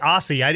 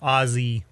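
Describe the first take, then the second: First: The middle consonant is an s sound. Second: The middle consonant is a z sound. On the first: "It's basically A-U-S-S-S is how I'm pronouncing" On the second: "from down there, it's O-Z-Z-Z-E-E-E-E"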